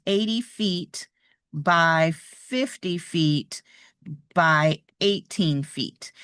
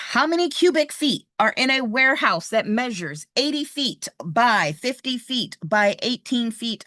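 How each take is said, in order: First: Slow, spaced reading. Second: Said in the usual way. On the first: Shown as a demonstration. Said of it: "it could look like this". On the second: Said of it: "Just as a reminder".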